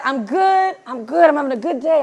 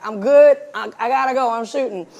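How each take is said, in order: First: Higher, lilting upbeat reply; extra sparkle. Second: Loud first words, then dropping away; busy on set. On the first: Friend answering a check-in call, extra sparkle in the voice. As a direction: imitate a friend sounding unusually chipper. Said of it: "you sound a little extra sparkle in your voice". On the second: Director taking a call while shooting, busy brush-off. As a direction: imitate brushing off a caller mid-shoot. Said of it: "that's how I sound when someone calls me and I'm shooting". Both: Retold or imitated.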